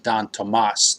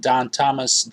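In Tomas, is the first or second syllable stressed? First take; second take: second; first. First: The stress is on the second syllable of Tomas. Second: The stress is on the first syllable of Tomas.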